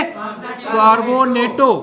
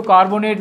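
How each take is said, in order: First: कार्बोनेटो said slowly with the final ओ drawn out; ligand ending -o. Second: Said in the usual way. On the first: Shown as a demonstration. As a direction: stretch the end of कार्बोनेटो into a long ओ. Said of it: "इसको कार्बोनेट नहीं, क्या बोलेंगे". (कार्बोनेटो का आख़िरी ओ खींचकर) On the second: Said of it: "इसको कार्बोनेट नहीं".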